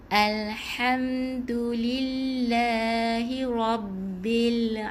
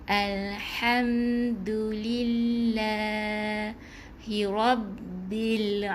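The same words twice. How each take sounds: The two takes are said the same way.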